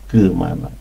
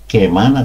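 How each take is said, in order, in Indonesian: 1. Vokal pertama berada di antara e dan a. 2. Vokal pertama adalah e yang jelas dan penuh. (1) "yang benar antara E dan A ya" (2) "orang Batak kalau uh, huruf E dibaca E, kemana pasti dibilang ke"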